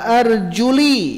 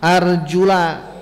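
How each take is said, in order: First: The word ends with an i vowel. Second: The word ends with an a vowel. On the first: The feet need only be wiped. "dengan dikasrohkan" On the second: The feet must be washed. "dengan fathah"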